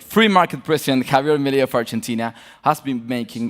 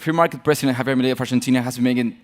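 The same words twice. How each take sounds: First: The sentence is read more slowly. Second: The sentence is read very quickly. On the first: "I'll do it a little bit more slowly" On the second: "I'm going to read very, fa very fast"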